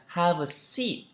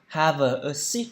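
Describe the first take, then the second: First: "have a seat" with have-a run together; smooth, joined-up "have a seat"; linked sounds. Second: "have a seat" with have and a kept apart; "have a seat" word by word, no linking; unlinked words. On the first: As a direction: link the v of "have" straight into "a". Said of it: "Đọc nối âm luôn là". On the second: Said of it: "Chứ không phải là đọc là". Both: Shown as a demonstration.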